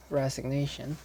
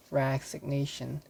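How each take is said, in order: First: Resignation said as rez-ig-NAY-shun, with a z sound; corrected pronunciation. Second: Resignation said as rak-sig-NAY-shun, with a k sound; mispronounced resignation. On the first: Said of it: "It should be resignation". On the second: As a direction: Resignation mispronounced with ks in the first syllable. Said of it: "No, it makes no sense". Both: Shown as a demonstration.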